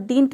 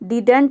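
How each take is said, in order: First: The middle d sound is dropped. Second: The middle d sound is pronounced. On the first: "और डिंट भी बोल सकते हैं" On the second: "इसको आप डिडंट भी बोल सकते हैं"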